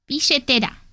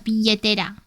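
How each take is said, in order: First: The double L is a strong sh sound. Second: The double L is a softer, weaker sound. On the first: This is how the speaker's own country says it. "in my country, we pronounce it very strong, the sh" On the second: This is how some other speakers say it. "Less, less, less strong"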